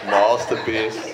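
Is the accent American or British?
British. It is said in a British accent. "is the more British accent"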